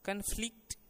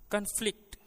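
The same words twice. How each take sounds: First: The stress is on the last syllable. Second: The stress is on the first syllable. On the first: The word is used as a verb. "क्रिया के रूप में अंतिम अवयव पर" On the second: The word is used as a noun. "संज्ञा के रूप में उस पर बल पहले अवयव पर पड़ता है"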